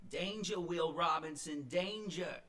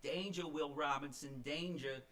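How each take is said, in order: First: Put-on high, loud Boston accent alarm. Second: Put-on lighter Boston accent echo, raised; a hint of Boston warning, recalled. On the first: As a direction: belt it like a Boston friend warning. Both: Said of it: "in her Boston accent".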